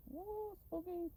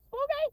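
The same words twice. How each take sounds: First: Mock spooky. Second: Loud high squeal on Spooky!; shrieked spooky. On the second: Pretend. Teasing the creepy late-night scene, shrieked high and loud. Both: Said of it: "mocking the spooky late-night scene".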